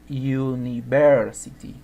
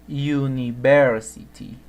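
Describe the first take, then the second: The two takes are said the same way.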